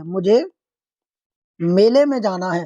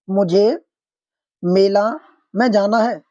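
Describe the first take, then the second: First: मेले said clearly with the ए ending, मुझे, pause, मेले में जाना है; corrected form. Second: मुझे, मेला, में जाना है with pauses and मेला ending in a long आ; wrong form read out. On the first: Teacher to students reading the corrected sentence with मेले, measured. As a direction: give the right मेले firmly. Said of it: "मेले होता है". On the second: Teacher to students reading the faulty sentence with मेला, word by word. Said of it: "मुझे मेला नहीं होगा". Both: Shown as a demonstration.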